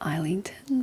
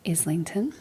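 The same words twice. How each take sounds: First: The name is said in a literal reading way. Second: The name is said in the accepted way. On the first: The speaker calls it wrong. "my brain really wants to pronounce it as Islington" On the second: The speaker calls it right. "but I believe it's Islington"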